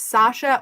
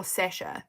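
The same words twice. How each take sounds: First: Sasha with a long open "ah", SAH-sha; first pronunciation of Sasha. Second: Sasha with a short front vowel, SESH-a; second pronunciation of Sasha. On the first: Explaining the confusion over spelling, Sasha said SAH-sha. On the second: Explaining the confusion over spelling, Sasha said SESH-a. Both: Shown as a demonstration. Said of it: "never sure if it's Sasha or Sasha".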